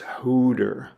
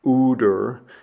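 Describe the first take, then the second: First: The word begins with an h sound. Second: The word begins directly with a vowel. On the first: The speaker calls it right. "it's hooter" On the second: The speaker calls it wrong. "it's not ooder"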